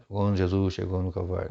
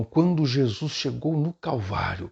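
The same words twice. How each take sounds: First: Said in the usual way. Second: Slow, drawn-out, raised dramatic oratory; theatrical preacher delivery. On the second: Shown as a demonstration. Teacher demonstrating a change of intonation for the pulpit, theatrical. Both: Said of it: "não é ficar falando com aquela".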